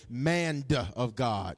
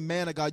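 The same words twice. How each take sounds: First: It is said in a drawn-out Southern preacher style. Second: It is said in a plain, ordinary way. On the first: "when you're real deep and spiritual, you say man of God" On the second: "you don't say man of God"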